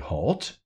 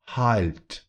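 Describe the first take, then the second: First: The word is said with an English pronunciation. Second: The word is said with a German pronunciation. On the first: "So in English we say halt" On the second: "But in German, the tongue comes up to the roof of the mouth after that L"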